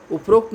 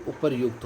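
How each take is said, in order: First: उपरोक्त said uprokt, stressed as the wrong form; उपरोक्त read out as the form to avoid. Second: उपरयुक्त said uparyukt, softer and lower; उपरयुक्त given as the right form; correct form uparyukt. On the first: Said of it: "उपरोक्त नहीं होता है". (गलत रूप उपरोक्त) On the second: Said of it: "उपरयुक्त होता है". (सही रूप उपरयुक्त) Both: Shown as a demonstration.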